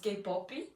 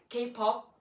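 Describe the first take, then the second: First: An extra vowel follows the final p. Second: The word ends on the p sound.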